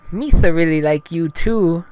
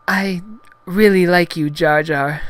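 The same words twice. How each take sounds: First: High, loud lisping alien voice; Jar Jar Binks. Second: High, halting heroine falsetto; Padme, bashful. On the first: Gungan returns heroine's affection, high loud lisping voice. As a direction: return the affection in goofy cartoon voice. Jar Jar answering Padme's confession. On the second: Blushing heroine confesses to Gungan, high halting falsetto. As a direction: confess it in a high voice, pausing after I. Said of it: "She looked away from him". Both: Acted.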